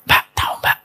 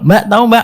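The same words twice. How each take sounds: First: It is said in a low, hushed voice. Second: It is said at an ordinary speaking volume. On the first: The gossip is serious and about someone close. "kalau semakin suaranya rendah, itu semakin berkualitas gibahnya" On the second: The gossip is ordinary. "ah itu biasanya gibah, gibah biasa"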